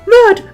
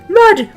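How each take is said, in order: First: It is said in a very high-pitched voice. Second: The same.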